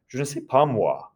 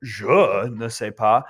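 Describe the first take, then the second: First: Quick unstressed "Je", emphasis moved to "moi"; stress on moi. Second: "Je" drawn out and pushed, English-style; stress on Je. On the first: Teacher showing French-style emphasis, weight on "moi". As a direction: let "Je" slip by, land on "moi". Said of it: "that's how a French person would do that". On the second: Teacher showing what French people don't say, stress on "Je". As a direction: lean hard and slowly on "Je". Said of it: "In French, you cannot say". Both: Shown as a demonstration.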